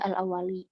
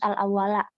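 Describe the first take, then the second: First: The word ends with an i vowel. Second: The word ends with an a vowel. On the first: The word is in the genitive case. The speaker calls it wrong. "nggak boleh al-awwali" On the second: The word is in the accusative case. The speaker calls it right. "harus al-awwala"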